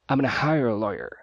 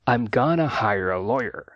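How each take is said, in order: First: 'Gonna' is clipped into an even shorter form. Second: 'Going to' is reduced to 'gonna'. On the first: "formas ainda mais reduzidas" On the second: "uma forma mais natural é I'm gonna"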